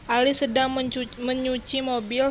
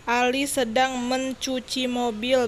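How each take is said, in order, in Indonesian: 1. Kata kerja itu diawali bunyi 'meny'. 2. Kata kerja itu diawali bunyi 'menc'.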